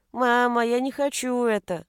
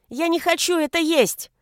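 First: Put-on drawn, plaintive little-boy whine; whining child. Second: Put-on high, loud little-boy protest; child's defiant yell. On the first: Son begging mother not to eat, whining. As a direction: whine to mama. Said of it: "Сын заныл". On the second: Son refusing food before father, yelling. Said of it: "и закричал". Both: A narrator's reading.

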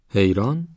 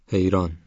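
First: حیران asked back with a sharp rising tune, a bit louder; puzzled echo question. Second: Said in the usual way. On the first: Acted. Child repeats name in surprise. («حیران؟» با لحن پرسشی و متعجب)

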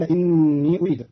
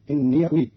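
First: Said in the usual way. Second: "إني" said inniya before "أريد"; ya with fatha. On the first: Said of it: "قرأ قالون كلمتين إني أريد". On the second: Shown as a demonstration. Teacher shows Qalun's reading, "إني" as inniya. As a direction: end "إني" on a short ya. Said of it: "بفتح ياء الإضافة فتصير".

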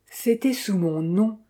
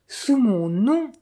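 First: Said in the usual way. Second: Sous mon nom repeated slower and higher, nom rising; second sous mon nom lifted and stretched on nom; stress on nom. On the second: A narrator's reading. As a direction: lean into the repeat, drawn out. Emphatic repeat of phrase.

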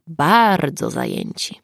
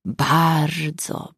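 First: Slowed repeat, weight on bardzo; stress on bardzo. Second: Said in the usual way. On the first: A narrator's reading. Narrator mocking how busy everyone was, bardzo stressed and slowed. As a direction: lean into the second bardzo, drawn out slowly.

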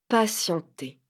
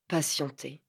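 First: Said in the usual way. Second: Quiet brooding echo, lower and softer; ruminated word. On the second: A narrator's reading. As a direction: murmur it as a bitter thought. Mot détesté répété. (mot ruminé plus bas et plus doux)

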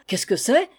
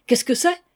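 First: A touch of startled calling; startled cry. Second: Higher, louder second "Qu'est-ce que c'est?"; louder startled cry. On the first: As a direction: woken up and asking what that was. (cri surpris, à mi-voix) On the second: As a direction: repeat it higher and more alarmed. (les valets réveillés crient « Qu'est-ce que c'est? » plus fort) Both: Acted. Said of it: "crièrent".

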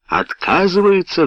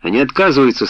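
First: High-pitched, incredulous outburst; roared question. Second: Said in the usual way. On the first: A narrator's reading. Helsey hears his order is refused, roaring. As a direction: echo it back in outrage, pitch leaping. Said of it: "взревел Хелси". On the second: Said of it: "ответил Ренкин".

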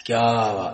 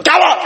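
First: Low, soft note of admiration; hushed, low-pitched approval; appreciative praise. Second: Sharp, high-pitched challenge; short, high confrontational question; picking a fight. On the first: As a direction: say it as quiet applause. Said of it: "یعنی میں داد دے رہا". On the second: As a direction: snap it out as if starting a quarrel. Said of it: "مطلب میں لڑدا پیا". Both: Shown as a demonstration.

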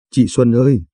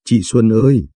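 First: A touch of tears calling Chị Xuân ơi once more; understated weeping cry; sobbing lightly. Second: A touch of tears calling Chị Xuân ơi; mildly tearful cry of recognition; sobbing lightly. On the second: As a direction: call out to her sister, understated weeping. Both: A narrator's reading. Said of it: "Hạ bưng mặt bật khóc nức nở".

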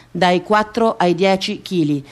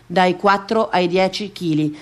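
The two takes are said the same way.

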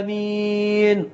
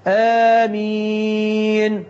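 First: آمين with the first vowel short and the second long; wrong amen. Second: آمين with a two-count first vowel and a short ending; correct amen. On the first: Preacher showing the congregation's wrong amen. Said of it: "غلط، تقالش كده". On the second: Preacher demonstrating the correct amen for worshippers. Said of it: "مد البدل هنا يمد حركتين فقط". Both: Shown as a demonstration.

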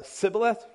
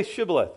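First: Sibboleth said with S instead of SH; failed password, S starting Sibboleth; mispronounced with s. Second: Shibboleth said with an initial SH; sh pronunciation. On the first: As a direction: attempt the password but give Sibboleth an "s". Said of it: "They said s". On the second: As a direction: give Shibboleth its hushing "sh". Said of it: "They couldn't say the sh". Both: Acted.

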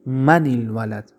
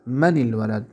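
First: من الولد said slowly, joining the ن to الولد with a kasra; careful classroom pronunciation; slow model reading. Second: Said in the usual way. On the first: Shown as a demonstration. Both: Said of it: "برای گذشتن التقا چی دادیم؟".

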